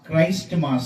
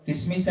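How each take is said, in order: First: It is said as two words, Christ and mass. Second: It is said as kismis, without the 'r'. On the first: This is the form the speaker recommends. The speaker calls it right. "క్రైస్ట్ మాస్ అనాలి" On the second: This is how village people say it. The speaker calls it wrong. "పల్లెటూళ్ళల్లో కిస్మిస్ అనేవాళ్ళు"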